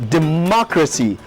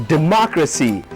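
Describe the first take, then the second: Both takes have the same delivery.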